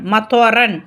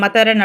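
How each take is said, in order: First: The middle consonant is a heavy, emphatic ṭ. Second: The middle consonant is a plain, light t. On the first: The speaker calls it right. "துவா ஃபத்தஹா துவ மத்வ ரன்" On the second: The speaker calls it wrong. "அந்த மாதிரி தா கொடுக்கக்கூடாது"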